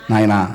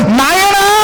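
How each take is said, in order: First: "నాయనా" said very soft and low, like a father to his son; tender fatherly call. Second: Fatherly call. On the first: Pastor shows how a father calls his son, soft and tender. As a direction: breathe "నాయనా" gently, lower and softer. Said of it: "ఒక తండ్రి కొడుకుని ఏం పిలుస్తాడు". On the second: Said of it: "అట్టగా చదివేది విధానం అది కాదు". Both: Shown as a demonstration.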